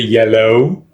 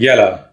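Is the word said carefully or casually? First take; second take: carefully; casually. First: The word is said fully and carefully. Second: The word is said in a relaxed, casual way. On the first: "People won't say yellow" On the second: "When you say that casually, They'll end up saying yellow"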